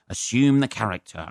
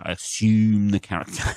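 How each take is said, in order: First: Said in the usual way. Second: Lightly shifted stage voice for the same words; mock stage persona; put-on character voice. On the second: Shown as a demonstration. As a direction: slip into a performer persona.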